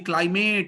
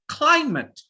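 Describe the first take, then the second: First: The stress is on the second syllable. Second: The stress is on the first syllable. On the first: The speaker calls it wrong. "we do just the opposite" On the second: The speaker calls it right. "always put pressure on the first sound"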